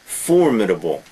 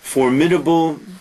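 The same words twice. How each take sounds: First: The stress is on the first syllable. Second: The stress is on the second syllable. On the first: The speaker calls it right. "Notice the pronunciation. The first first uh, syllable" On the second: The speaker calls it wrong.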